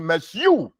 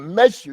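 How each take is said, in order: First: The stress is on the second syllable. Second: The stress is on the first syllable. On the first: The speaker calls it wrong. "You can't say meshu" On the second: The speaker calls it right. "You have to put the emphasis on the mean"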